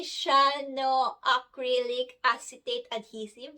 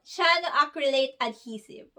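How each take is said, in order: First: "Shano acrylic acetate adhesive" fumbled, with an extra "acetate"; botched try at "Shano acrylic acetate adhesive"; butchered pronunciation. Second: "Shano acrylic adhesive" run together as "shano-akrilet adhesive"; final attempt at "Shano acrylic adhesive", no extra syllables; careful retry. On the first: Real, not acted. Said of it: "I totally butchered that". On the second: Shown as a demonstration. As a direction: get through "Shano acrylic adhesive" in one go, as "SHA-no AK-ri-let". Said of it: "I hope I got that".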